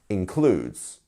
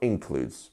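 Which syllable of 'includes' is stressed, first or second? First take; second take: second; first. First: The stress is on the second syllable. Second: The stress is on the first syllable. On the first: The speaker calls it right. "it is the second syllable here that is getting that" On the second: The speaker calls it wrong. "not includes"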